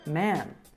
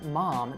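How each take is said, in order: First: The vowel is drawn out and lengthened. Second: The vowel is short and plain. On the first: "the ah sound ... is more drawn out in the Michigan accent" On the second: "instead of saying mom"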